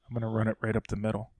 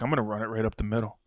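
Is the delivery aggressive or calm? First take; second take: calm; aggressive. First: It is said in a calm, mild way. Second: It is said in an aggressive, forceful way. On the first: The speaker calls it right. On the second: The speaker calls it wrong.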